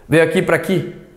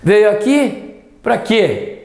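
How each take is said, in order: First: The final word is reduced to an 'i' sound. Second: The final word is stressed with a full vowel. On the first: The speaker calls it wrong. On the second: The speaker calls it right.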